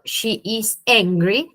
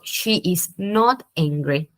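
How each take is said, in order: First: Said in the usual way. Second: Slow careful English with not leaned on; stress on not. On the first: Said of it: "ahí está en afirmativo". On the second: Shown as a demonstration. Teacher showing the negative, slowly stressing not. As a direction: slowly land on the word not. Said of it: "si yo quiero decirlo en negativo".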